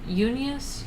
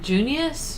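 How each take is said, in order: First: The name begins without a hard J sound. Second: The name begins with a hard J sound.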